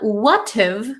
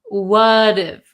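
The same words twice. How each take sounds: First: The T is clear and the words are separate. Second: The T is a soft flap, words run together. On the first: The speaker calls it wrong. "It's not what if" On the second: The speaker calls it right. "we have that flap T"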